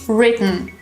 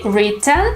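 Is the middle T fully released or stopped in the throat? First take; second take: throat stop; released. First: The middle T is stopped in the throat. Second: The middle T is fully released. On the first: "we actually say" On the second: "We don't say"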